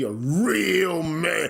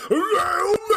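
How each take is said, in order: First: Drawn-out, mocking stress; sarcastically stretched catchphrase; mocking emphasis. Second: High, drawn-out mocking cry; hammed-up high-pitched holler; mock wailing shout. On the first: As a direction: stretch the words out in mockery. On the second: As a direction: wail it high, stretching every word. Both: Mocking demand to be manly.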